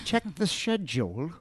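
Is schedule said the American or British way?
British. Schedule is said with a British pronunciation. The speaker calls it wrong. "Not check the schedule"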